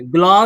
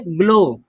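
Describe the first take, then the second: First: ग्लाउ with an "au" ending; wrong pronunciation. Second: ग्लो with a long o, silent w; correct pronunciation. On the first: Teacher rejects a misreading, ग्लाउ ending in "au". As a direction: misread glow as ग्लाउ, w sounded. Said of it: "ग्लाउ नहीं करेंगे". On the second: Teacher shows the right reading, ग्लो with silent w. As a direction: end ग्लो on a pure o. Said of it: "डब्ल्यू को नहीं पढ़ते हैं". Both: Shown as a demonstration.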